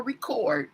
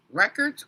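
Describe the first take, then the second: First: "record" with the stress on CORD; stress on second syllable. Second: "Records" with the stress on REC; stress on first syllable. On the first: Host comparing two ways to say a surname, "record" stressed on the second syllable. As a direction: say "record" as rih-KORD. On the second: Host comparing two ways to say a surname, "Records" stressed on the first syllable. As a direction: say "Records" as REK-erdz. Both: Shown as a demonstration. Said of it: "but it's pronounced different".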